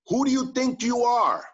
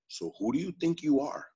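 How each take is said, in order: First: It is asked in a challenging, confrontational tone. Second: It is asked as a sincere, reflective question.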